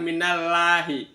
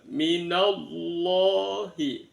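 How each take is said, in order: First: The 'll' in Allah sounds thin and light. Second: The 'll' in Allah sounds thick and heavy. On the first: The speaker calls it wrong. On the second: The speaker calls it right. "dibaca tafkhim, tebal"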